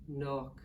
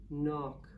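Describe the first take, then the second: No difference in how they are said.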